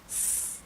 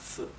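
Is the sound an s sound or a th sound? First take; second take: s; th. First: The sound is a plain hissing s sound. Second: The sound is a soft th, like in think. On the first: This is how Latin America says it. "like a simple S" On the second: This is how most of Spain says it. "in most parts of Spain ... like the th in English"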